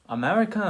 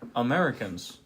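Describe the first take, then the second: First: It is said in a put-on foreign accent. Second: It is said in the speaker's normal accent.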